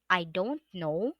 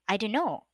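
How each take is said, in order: First: The phrase is said fully with each word clear. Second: The phrase is squeezed into a shorter contracted form. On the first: "Instead of saying" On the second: "you will say"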